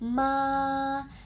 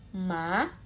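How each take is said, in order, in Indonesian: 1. Nadanya datar dan tinggi. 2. Nadanya naik seperti pertanyaan yang kaget. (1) "nada satu mendatar gampang seperti paduan suara" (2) "Nada dua seperti kita shock, kaget"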